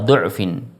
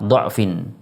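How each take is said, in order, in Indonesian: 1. Vokal pertama adalah bunyi u bulat. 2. Vokal pertama adalah bunyi a terbuka. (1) "membaca dengan dhammah uh, du'fin" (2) "membaca dengan fathah du'fin"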